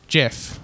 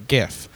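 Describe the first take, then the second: First: GIF said "jif"; soft-g GIF. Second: GIF said "ghif"; hard-g GIF. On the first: Concluding his syntax argument, GIF with soft g. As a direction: say gif with a j, as in giraffe. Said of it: "Because the I softens the G". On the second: Explaining the other side, GIF with hard g. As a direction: give gif a hard g as in graphics. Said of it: "a G, uh, G, so it would be". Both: Shown as a demonstration.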